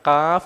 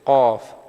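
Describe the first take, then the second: First: The letter name is said light, not thickened. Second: The letter name is said heavy and thickened. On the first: The speaker calls it wrong. "ഖാഫ് എന്ന് പറയരുത്" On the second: The speaker calls it right. "ഈ അക്ഷരവും കനപ്പിക്കേണ്ട അക്ഷരമാണ്"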